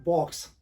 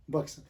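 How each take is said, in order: First: बॉक्स with an open aw vowel, bawks; बॉक्स as bɔks; correct pronunciation. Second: बक्स said with a short u, buks; imitating the mistaken बक्स; बक्स rhyming with bucks; wrong pronunciation. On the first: Shown as a demonstration. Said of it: "Actually ये word है बॉक्स". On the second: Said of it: "Actually ये word बक्स नहीं है".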